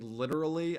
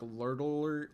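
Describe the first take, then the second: First: The word is pronounced clearly with distinct sounds. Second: The word is slurred with blurred R and L. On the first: The speaker calls it right. "instead of saying literally" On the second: The speaker calls it wrong. "I'd be like lurtler"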